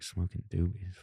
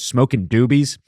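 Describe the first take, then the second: First: It is mumbled quietly under the breath. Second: It is said loudly and forcefully. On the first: "He's like mumbling to himself" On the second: "And then he gets louder"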